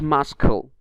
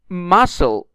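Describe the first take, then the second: First: A k sound is heard in the middle. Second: No k sound is heard in the middle. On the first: The speaker calls it wrong. "not muscle" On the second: The speaker calls it right. "but muscle"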